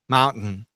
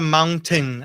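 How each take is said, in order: First: The middle T is swallowed in the throat. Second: The middle T is fully released. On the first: The speaker calls it right. "E a gente come esse T, né? Como se fosse engolir" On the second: The speaker calls it wrong. "A montanha a gente não fala mountain"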